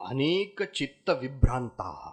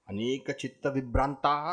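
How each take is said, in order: First: Fast recitation. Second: Faster recitation. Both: Shown as a demonstration.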